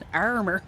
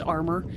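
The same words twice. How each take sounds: First: It is said in an Irish accent, strong R's. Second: It is said in an American accent. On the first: "when you get the Irish accent in, there's all those extra R's" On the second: "In the United States, it's just armor"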